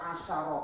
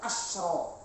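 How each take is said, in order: First: The shin sound is followed by an a vowel. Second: The shin sound is followed by no vowel. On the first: The counted thing is masculine. "bisa dibaca asyara fathah" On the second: The counted thing is feminine. "Kalau perempuan harus disukun"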